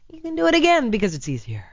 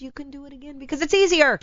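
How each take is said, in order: First: High-pitched line peaking on "again"; stress on AGAIN. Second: High-pitched line landing on "easier"; stress on EASIER. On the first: Repeating the point on serial cheaters, weight on "again". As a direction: punch "again", then let the pitch fall. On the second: Explaining serial cheaters, high voice with weight on "easier". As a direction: lean on "easier" at the end. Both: Real, not acted.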